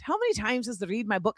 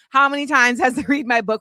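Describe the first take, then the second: First: It is spoken in a put-on Irish accent. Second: It is spoken in the speaker's usual accent.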